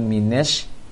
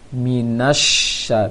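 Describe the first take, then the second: First: The vowel after the n is an e. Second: The vowel after the n is an open a. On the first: The speaker calls it wrong. "jangan minesh" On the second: The speaker calls it right. "Seharusnya A semuanya"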